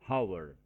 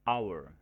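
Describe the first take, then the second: First: The word starts with an audible h sound. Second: The word starts with a vowel, no h sound. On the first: The speaker calls it wrong. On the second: The speaker calls it right. "dalam pengucapannya diawali dengan suara konsonan A"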